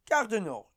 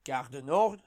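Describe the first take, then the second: First: Gare du Nord starting high, falling; Paris metro announcer. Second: Gare du Nord rising like a question; Paris metro announcer. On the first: Comedian mimicking the second metro announcement, falling announcer. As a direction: announce Gare du Nord as arrived, dropping close. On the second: Comedian mimicking the first metro announcement, rising announcer. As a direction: announce Gare du Nord as the next stop, lifted ending. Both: Acted. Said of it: "whenever they announce the".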